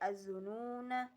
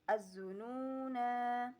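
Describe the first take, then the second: First: The final vowel is short. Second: The final vowel is long. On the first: The reading continues without stopping. "Ketika wasolnya dibaca" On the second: The reading stops at this word. "ketika waqafnya dibaca"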